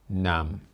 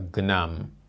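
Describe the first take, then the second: First: The name starts with a plain N sound. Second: The name starts with a hard G sound. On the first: The speaker believes this is correct. The speaker calls it right. "the G is silent" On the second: Someone else said it this way. The speaker calls it wrong. "I heard someone from Canada calling him Mister Gnam"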